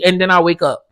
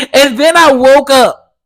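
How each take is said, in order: First: Said in the usual way. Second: Higher and louder, laughing through it. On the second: Real, not acted. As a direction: crack up at the punchline. Laughs at own dream story.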